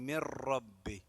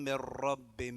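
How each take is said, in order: No difference in how they are said.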